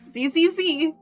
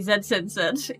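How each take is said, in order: First: The letter is pronounced 'zee' each time. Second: The letter is pronounced 'zed' each time. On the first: "I don't know why I read Z Z Z as Z Z Z" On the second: "British people, when they're about to sleep"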